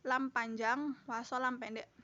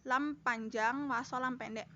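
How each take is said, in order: Both takes have the same delivery.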